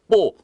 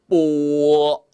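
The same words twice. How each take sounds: First: The syllable is cut off very short. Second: The syllable is held longer with a full rhythm. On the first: The speaker calls it wrong. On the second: The speaker calls it right.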